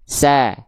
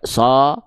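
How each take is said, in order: First: The vowel is thin and sounds like a. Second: The vowel is thick and sounds like o. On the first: The speaker calls it right. "tapi sa" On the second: The speaker calls it wrong. "enggak teman-teman baca so"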